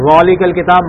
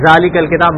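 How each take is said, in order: First: The first word starts with a heavy, emphatic dh. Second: The first word starts with a z sound. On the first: "غ سے ذالک الکتاب, معنی چینج ہو گئے" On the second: "زا سے کہیں ذالک الکتاب, معنی چینج ہو گئے"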